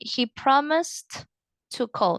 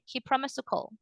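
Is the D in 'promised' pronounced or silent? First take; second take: pronounced; silent. First: It is said slowly with the D pronounced. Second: It is said fast with the D silent. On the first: The speaker calls it wrong. "If you say it as slowly, ... No, that sounds weird" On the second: The speaker calls it right. "if you say it faster, the D of promise goes silent"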